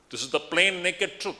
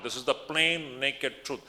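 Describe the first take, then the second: First: Said in the usual way. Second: Slow down and lean on "plain" in "This is the plain naked truth"; slow emphatic repeat. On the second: Real, not acted. Teacher repeating the key point to his listeners, slow and emphatic. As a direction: stress "plain" firmly, each word weighed. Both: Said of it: "Let me em-, emphasize this point".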